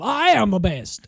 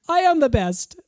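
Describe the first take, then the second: First: It is said in an exaggerated cartoon southern drawl. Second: It is said in a mild, ordinary accent. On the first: This mocks an exaggerated impression of the woman. The speaker calls it wrong. "she's making her sound like Yosemite Sam" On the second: This is how the woman really sounds. The speaker calls it right. "That's how she sounds"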